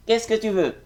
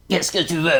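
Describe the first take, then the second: First: Much higher put-on voice, a bit louder; second character voice. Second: Higher put-on dubbing voice, a bit louder; first character voice. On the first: Same line for another character, much higher voice. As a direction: switch to a second character, pitch it way up. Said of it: "c'est toi encore qui va dire". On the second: Dubbing actor demos one character's voice to interviewer, higher and louder. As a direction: voice a character for a dub, pitched up. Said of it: "je vais faire". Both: Shown as a demonstration.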